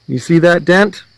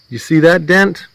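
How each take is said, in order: Both takes have the same delivery.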